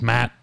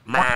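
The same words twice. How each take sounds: First: It is said in his normal voice. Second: It is said in a quacking, duck-like voice.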